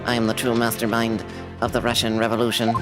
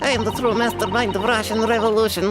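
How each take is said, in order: First: It is said without a Russian accent. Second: It is said with a put-on Russian accent.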